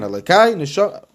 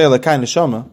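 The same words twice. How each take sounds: First: There is a pause after Elokai. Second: The two words run together without a pause.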